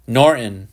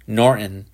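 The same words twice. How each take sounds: First: A firm, raised call of the name; loud voice. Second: Said in the usual way. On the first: A narrator's reading. Father raises his voice at the absorbed boy, firm. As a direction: call the name to cut through his focus. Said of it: "Shepard said in a loud voice". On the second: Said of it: "Shepard said".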